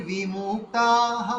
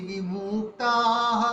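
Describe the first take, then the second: The two takes are said the same way.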